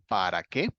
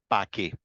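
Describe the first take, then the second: First: Both syllables of para are fully pronounced. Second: Para is cut down to a single syllable. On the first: "muy poco dicen para qué" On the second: "sino que decimos pa' qué"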